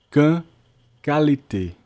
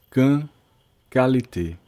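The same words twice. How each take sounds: The two takes are said the same way.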